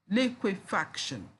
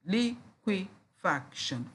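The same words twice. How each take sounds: First: Said in the usual way. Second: "liquefaction" slowly in four separate beats; syllable by syllable. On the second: Shown as a demonstration. Teacher counting four syllables, syllable by syllable. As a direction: break "liquefaction" up with a gap after each syllable. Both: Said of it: "four syllables there".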